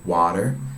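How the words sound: It is said in an American accent. "In America they say water"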